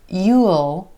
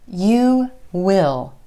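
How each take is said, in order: First: It is said as a full contraction. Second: It is said as two full words. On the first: "You will can become you'll"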